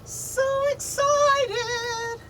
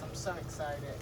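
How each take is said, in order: First: Very high, slow, sung-out excitement; excited squeal. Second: Softly, almost under the breath; low-key murmur; quiet. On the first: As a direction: stretch it out, squealing with joy. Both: Shown as a demonstration.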